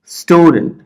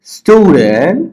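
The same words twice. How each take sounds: First: Said in the usual way. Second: student slow, stew high and stretched, dent rising after it; split into syllables. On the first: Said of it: "জোরে পড়ো". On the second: Shown as a demonstration. Teacher showing the divided word, syllable by syllable. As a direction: draw out both parts of student. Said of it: "ভাগ করে দিছি".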